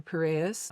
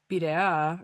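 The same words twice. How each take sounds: First: Piraeus said the American way; American accent. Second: Piraea said the Greek way; Greek pronunciation. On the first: Traveler restating the port's name for listeners, American accent. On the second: Traveler naming the Athens port to listeners, Greek pronunciation. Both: Shown as a demonstration. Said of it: "with a more American accent".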